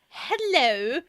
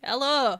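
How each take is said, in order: First: The O vowel differs from the speaker's usual one. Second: The O vowel is the speaker's usual one. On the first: Someone else said it this way. The speaker calls it wrong. "they're going hello ... can't get the O right" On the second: This is how the speaker says it. The speaker calls it right. "say it like me"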